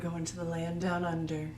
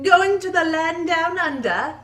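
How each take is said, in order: First: It is said in the speaker's ordinary accent. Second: It is said in a put-on Australian accent. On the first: "I actually planned on saying that with an accent" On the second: "the end maybe, but the first part sounds British"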